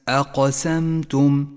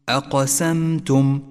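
No difference in how they are said.

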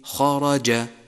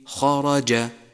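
First: The j sounds like a true j. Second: The same.

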